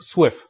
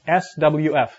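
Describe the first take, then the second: First: It is said as a single word. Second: It is spelled out letter by letter. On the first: The speaker calls it right. "What you want to say is SWIFT" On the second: The speaker calls it wrong. "people don't say SWF. It's not cool"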